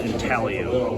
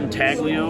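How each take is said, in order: First: The G sound is left out entirely. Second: The G sound is pronounced in the middle. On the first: The speaker calls it right. "the G is silent. It's pronounced intaglio" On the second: The speaker calls it wrong. "A lot of people call it intaglio"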